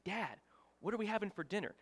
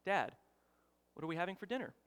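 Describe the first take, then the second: First: Retold irritated question, close to his ear; a little irritated. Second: Retold calm question to dad; everyday unbothered asking; calm, regular voice. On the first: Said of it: "like I'm whispering in his ear". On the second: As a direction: ask it evenly and softly, no pressure. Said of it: "in just a calm, regular voice".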